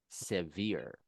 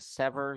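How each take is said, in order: First: The word sounds like 'severe', with a long ending. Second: The word sounds like 'sever', with a short ending. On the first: The speaker calls it right. "you're going to say severe" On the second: The speaker calls it wrong. "instead of saying sever"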